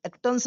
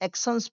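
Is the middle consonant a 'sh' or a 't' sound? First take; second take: t; sh. First: The middle consonant is a plain 't' sound. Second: The middle consonant is a 'sh' sound. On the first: The speaker calls it wrong. "इसे एक्टन्स नहीं पढ़ेंगे" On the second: The speaker calls it right. "एक्शंस पढ़ेंगे"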